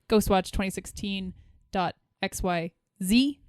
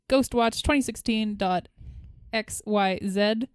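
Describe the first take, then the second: First: It ends with an American-style "zee". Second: It ends with a Canadian-style "zed".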